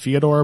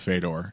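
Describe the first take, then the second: First: The name is said the original Russian way. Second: The name is said the common anglicized way. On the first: This is the technically correct pronunciation. The speaker calls it right. "It is technically pronounced Fyodor" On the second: This is the habitual mispronunciation among fans. The speaker calls it wrong. "but we all say Fedor"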